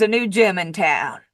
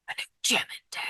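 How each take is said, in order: First: Said in the usual way. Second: Hushed, voiceless whisper; whispered echo. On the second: Real, not acted. Speaker confiding news of the new gym to viewers, whispered. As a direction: whisper it like a secret aside.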